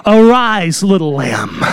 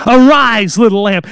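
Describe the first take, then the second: First: Tender endearment. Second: Tender call. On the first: Preacher voicing Jesus, tender and low. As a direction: say "Arise, little lamb" like a father waking his girl. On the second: Preacher repeating Jesus' call to the girl, tender. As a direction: repeat "Arise, little lamb" a little stronger. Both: Acted. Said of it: "a term of endearment used of a father talking to the daughter".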